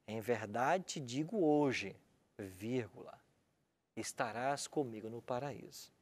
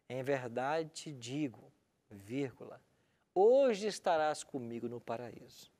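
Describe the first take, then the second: First: The break comes after the word hoje. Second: The break comes before the word hoje. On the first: The promise is made today about a future paradise. "Algumas Bíblias colocam a vírgula em outro local" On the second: The thief went to paradise that same day. "Uma que diz assim: em verdade te digo, vírgula"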